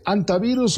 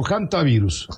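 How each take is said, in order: First: Hantavirus said with a silent H, starting on "an". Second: Hantavirus with the H sounded as a Spanish J. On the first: Host asks doctor how it is said, hantavirus with silent H. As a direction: drop the H of hantavirus completely. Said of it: "¿Cómo se dice?". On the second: Host offers doctor the other option, hantavirus with H like J. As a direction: start hantavirus on a rasped J sound, "jantavirus". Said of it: "hacen que la H suene como J". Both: Shown as a demonstration.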